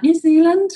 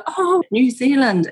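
First: High, loud upturn on New Zealand; rising answer. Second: Drawn-out high "oh", falling away; impressed reaction. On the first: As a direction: answer brightly with a rise, almost asking. Her retold answer to question. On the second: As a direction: imitate intrigued listeners, slow and high. Listeners' retold delighted reaction. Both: Retold or imitated.

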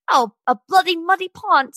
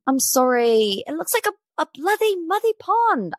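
First: Higher-pitched mock British accent; hammed-up British singer accent, badly faked. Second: Much higher, hammed-up British accent; botched British accent, Irish-sounding with a lisp. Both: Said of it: "Let me get my best [name] on".

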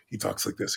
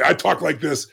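First: Very low, hushed gentle voice; Bill Kapp. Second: Said in the usual way. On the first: Shown as a demonstration. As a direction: demonstrate his soft-spoken way, barely above a murmur. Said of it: "in his gentle way".

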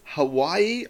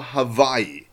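First: First "Hawaii" with a plain W sound. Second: Second "Hawaii" with V replacing W. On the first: Husband offering the stranger the wife's version, "Hawaii" with a W. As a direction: say "Hawaii" slowly, as Ha-WAI-ee. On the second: Husband offering the stranger his own version, "Hawaii" with a V. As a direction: say "Hawaii" slowly, as Ha-VAI-ee. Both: A narrator's reading. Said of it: "couldn't agree on how to pronounce".

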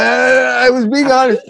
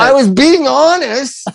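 First: High "being" pushed out through a laugh; laughing insistence. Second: Slow, emphatic "being" pitched high; drawn-out insistence. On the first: Cracking up while insisting to the co-host he was honest. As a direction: laugh it out while swearing you meant it. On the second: To the co-host defending himself, stretching "being" high and slow. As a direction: lean on "being" to insist you meant it. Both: Real, not acted.

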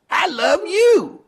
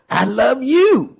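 First: Very high, slow, mock-tearful; mock sobbing declaration. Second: Higher, slow doting parody; gushing mock declaration. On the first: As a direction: wail it like a fan overcome with tears. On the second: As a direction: drag it out like a fawning admirer. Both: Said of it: "runs over to Donald Trump and says".

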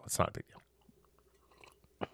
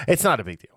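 First: Slow breathy whisper of It's not a big deal. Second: Said in the usual way. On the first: Shown as a demonstration. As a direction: whisper it slowly, almost silent.

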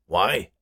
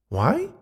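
First: Harrison's question. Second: High-pitched ghost woman asking back; high, questioning woman's character voice; Beatrice. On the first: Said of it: "Harrison asked". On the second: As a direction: toss the question back in a raised voice. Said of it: "Beatrice asked back". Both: A narrator's reading.

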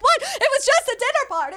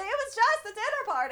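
First: High-pitched imitation of indignant disbelief; hammed-up high-voiced protest; mock protest. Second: High, small imitation of protest; hushed high-voiced mock plea; mock protest, softer. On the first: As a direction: protest your innocence in a high mock wail. Acts out protest while being handcuffed. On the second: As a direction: plead innocence in a soft high voice. Repeats the protest, much softer.

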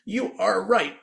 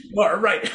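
First: High robotic toy voice; automated toy voice. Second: High laughing toy voice; automated toy voice. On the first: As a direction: mimic a chirpy electronic toy. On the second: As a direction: repeat the toy's chirp while laughing. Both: Retold or imitated. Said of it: "automated voice that goes".

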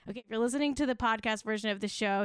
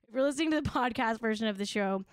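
First: Fast, tossed-off podcast aside; rushed. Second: Fast retake of the aside; quick redo of the line; rushed retake. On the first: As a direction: rattle it off quickly. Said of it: "hey, Jack, throw that back up". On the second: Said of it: "throw that back up for one more second". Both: Shown as a demonstration.

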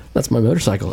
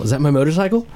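First: "motorcycle" falling, as a settled statement; acted recognition, landing down on "motorcycle"; retold realization. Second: "motorcycle" rising into a question; double-check it, lifting the pitch on "motorcycle"; acted doubt, ending upward on "motorcycle"; retold disbelieving question. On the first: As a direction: state it, dropping the pitch on "motorcycle". Retelling dawning recognition, statement first. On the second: Retelling doubt, same words as question.

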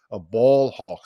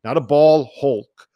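First: "hawk" said firmly; hawk stressed. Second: "hulk" hit loud and slow, set against "hawk"; hulk punched. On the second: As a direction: stress the word "hulk", said loud and drawn out. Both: Shown as a demonstration.

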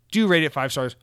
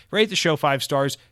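First: "Do" punched as the emphatic word; insistent "Do rate it five stars" with the weight on "Do"; stress on Do. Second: Said in the usual way. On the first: Shown as a demonstration. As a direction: lean hard on "Do" in "Do rate it".

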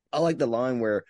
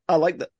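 First: Said in the usual way. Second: Laughing. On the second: Real, not acted. Laughing mid-sentence.

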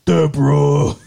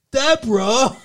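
First: A loud try at Ray calling Deborah; lightly voiced sitcom husband; imitating Ray. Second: Higher, rising "Deborah" in a failed impression; a second, higher stab at the voice; badly faked sitcom husband calling; failed Ray voice. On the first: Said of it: "now you sound like Ray". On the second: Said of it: "I can't do, I fucking can't do it".

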